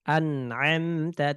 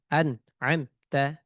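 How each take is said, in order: First: The word is read smoothly without breaks. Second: The word is read broken into separate chunks. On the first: The speaker calls it right. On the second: The speaker calls it wrong.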